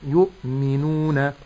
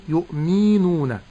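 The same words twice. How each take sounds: First: "يؤمنون" slowly, short mi and long nuu; correct natural lengthening. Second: "يؤمنون" with a long "mii"; wrong lengthened mim. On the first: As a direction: hold only the waw of "يؤمنون" for two beats. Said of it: "يمد مقدار حركتين". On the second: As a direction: drag the i after the mim in "يؤمنون". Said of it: "بمد الميم". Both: Shown as a demonstration.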